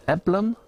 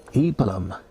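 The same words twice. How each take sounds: First: Eblum with a short E, pitched up as a question; short E start, questioning. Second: Eblum with a long EE first vowel, falling; long EE start. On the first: Unsure of the beer name, Eblum with short E, rising. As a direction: ask Eblum as EB-lum, rising. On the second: Reading out beer name, Eblum starting with long EE. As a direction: say Eblum as EE-bluhm. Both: Shown as a demonstration.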